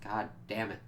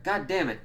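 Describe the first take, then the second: First: Soft, understated letdown; deflated exasperation. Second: Higher-pitched imitated frustration; mock angry outburst. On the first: Acted. Viewer let down by the episode, quietly exasperated. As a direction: mutter it softly, disappointed. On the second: Dad finding his weed broken, mock angry.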